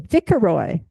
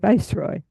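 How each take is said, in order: First: It is said with a childlike mispronunciation. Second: It is said with the standard pronunciation. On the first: The speaker does not know how to pronounce it. The speaker calls it wrong. "if you're a kid and you don't know how to pronounce it" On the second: The speaker knows how to pronounce it. The speaker calls it right. "when you grow up as an adult"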